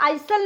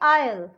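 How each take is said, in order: First: The s sound is pronounced. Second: The s sound is silent. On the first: The speaker calls it wrong. "इसको हम आइसल नहीं बोलेंगे" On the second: The speaker calls it right. "इसको हम बोलेंगे आयल"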